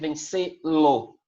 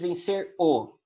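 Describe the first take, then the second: First: An L sound is added before the pronoun. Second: The verb runs straight into the pronoun o. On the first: The speaker calls it right. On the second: The speaker calls it wrong.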